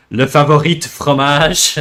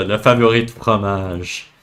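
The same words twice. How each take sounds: First: "favori" with an English flat a, fæ-vo-ri, read out rising; anglicized French. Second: "favori" with a French open a, fa-vo-ri, said quietly; proper French. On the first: Streamer reading a viewer's phrase aloud, anglicized French pronunciation. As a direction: say "favori de fromage" like an English speaker reading chat. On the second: Streamer correcting the chat's phrase, native French pronunciation. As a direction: repeat "favori de fromage" in natural Quebec French. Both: Shown as a demonstration. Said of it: "Ouais, exact".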